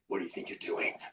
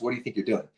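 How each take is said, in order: First: The line is said in a forceful, dramatic way. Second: The line is said in a flat, casual way. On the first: The speaker is performing the line in character. The speaker calls it right. "I got a stance and I go, ... Like this" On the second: The speaker is only reporting what the line is. The speaker calls it wrong. "You're not going to say it like that, right?"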